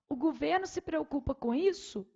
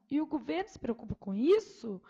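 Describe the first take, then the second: First: It is said flat, ending in a plain fall. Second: It is said with a questioning rise in pitch. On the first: It simply states a fact. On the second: It asks whether this is true. "interrogação"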